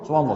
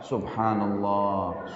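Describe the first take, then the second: First: It is rushed and mumbled together. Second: It is said slowly and deliberately. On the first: The words are recited without reflecting on them. The speaker calls it wrong. "seperti orang kumur-kumur" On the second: The words are recited with reflection and enjoyment. The speaker calls it right. "Renungi, enak, nikmatin prosesnya"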